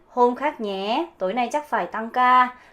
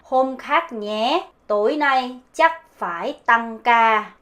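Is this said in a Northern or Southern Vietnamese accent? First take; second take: Northern; Southern. First: It is said in a Northern Vietnamese accent. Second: It is said in a Southern Vietnamese accent.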